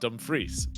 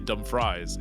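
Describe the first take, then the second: First: The name is said in the local way. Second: The name is said as it is spelled. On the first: The speaker is from the area. The speaker calls it right. "we have a place locally to us called" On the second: The speaker is an outsider. The speaker calls it wrong. "if you spell it out, it'd say"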